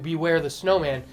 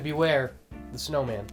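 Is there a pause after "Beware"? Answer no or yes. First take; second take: no; yes. First: It is said without a pause after beware. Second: It is said with a pause after beware.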